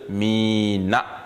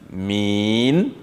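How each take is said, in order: First: The word ends with a short final vowel. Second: The word ends on the consonant, no final vowel. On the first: The speaker calls it wrong. "au lieu de mina" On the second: The speaker calls it right. "on va dire min"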